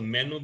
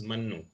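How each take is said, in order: First: "Mainu" with an open e in the first syllable; Punjabi form. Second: "Mannu" with short first vowel and held n; Ambala form. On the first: Teacher contrasting dialects, "Mainu" with Punjabi vowel. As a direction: say "Mainu" as men-oo, Punjabi style. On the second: Teacher contrasting dialects, "Mannu" with short Ambala vowel. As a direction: say "Mannu" as mun-noo. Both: Shown as a demonstration.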